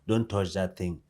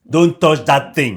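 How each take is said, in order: First: It is said in a mild, casual tone. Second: It is said in a stern, serious tone.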